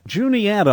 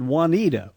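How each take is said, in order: First: The name begins with a clear J sound. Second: The name begins without a clear J sound. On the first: The speaker calls it right. "You do enunciate the J" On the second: The speaker calls it wrong. "I've always pronounced it Juanita"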